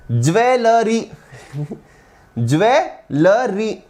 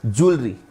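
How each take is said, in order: First: ज्वेलरी drawn out as jew-ve-lə-ri, four slow syllables; mock wrong pronunciation. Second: ज्वेलरी said short as julri, two syllables; correct pronunciation. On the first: Teacher mocking students who say ज्वेलरी as jewelery. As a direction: imitate students saying ज्वेलरी as d͡ʒʋeləri. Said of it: "ऐसे कुछ कुछ बोलते हैं". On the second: Shown as a demonstration. Teacher giving the class the right ज्वेलरी as julri. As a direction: say ज्वेलरी as d͡ʒulri, quick and clipped. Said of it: "बोलो मेरे साथ".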